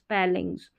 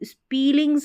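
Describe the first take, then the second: First: The first vowel is a short 'eh' sound. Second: The first vowel is a long 'ee' sound. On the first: The speaker calls it right. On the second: The speaker calls it wrong.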